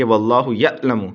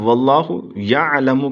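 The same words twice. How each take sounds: First: یعلم broken by a glottal stop after the ya; jerked hamza. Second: یعلم with a smooth, throaty ain after the ya; correct ain. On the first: Teacher warns students of the wrong meaning, hamza jerk in یعلم. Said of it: "جھٹکا دے کے پڑھیں گے". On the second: Teacher gives the verse meaning God knows, ain in یعلم. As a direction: voice the ain through یعلم without a jerk. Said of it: "لیکن اگر آپ جھٹکا دے". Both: Shown as a demonstration.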